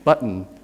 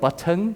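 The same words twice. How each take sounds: First: The T is a glottal stop. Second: The T is a fully pronounced T. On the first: The speaker calls it right. "the T will become a glottal stop" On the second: The speaker calls it wrong. "foreign language speakers of English will say something like button"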